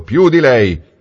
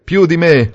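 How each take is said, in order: First: «più» stressed high then falling; boastful bookseller. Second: Incredulous echo. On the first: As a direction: end the brag with «più» hit hard. Niccolò ends his boast. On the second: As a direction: throw back «Più di me?» amused. Valentini echoes in disbelief. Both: A narrator's reading.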